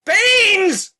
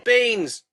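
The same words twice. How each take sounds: First: High, loud repeat of Beans!; Beans! yelled up the pipe; louder shout. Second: Said in the usual way. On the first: Acted. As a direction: shout Beans! again so she hears.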